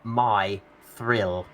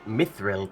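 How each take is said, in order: First: The name is split into two separate parts. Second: The name is said as one smooth word. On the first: The speaker calls it wrong. "broke it into two parts" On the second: The speaker calls it right. "saying it as one word"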